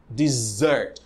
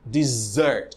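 First: The stress is on the second syllable. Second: The stress is on the second syllable.

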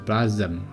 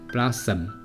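First: The middle consonant is not an s sound. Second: The middle consonant is a clear s sound. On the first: The speaker calls it wrong. "不是blossom" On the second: The speaker calls it right. "这是发死的音"

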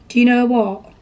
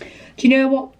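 First: The word 'know' sounds like 'no'. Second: The word 'know' sounds like 'nay'. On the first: The speaker calls it right. "There we go" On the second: The speaker calls it wrong. "I've noticed lately I say no, like nay"

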